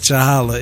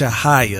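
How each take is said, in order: First: The last syllable starts with an L sound. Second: The last syllable starts with a Y sound. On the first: The speaker calls it wrong. "it's definitely not Chahala" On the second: The speaker calls it right. "It's Chahaya. ... There's no L"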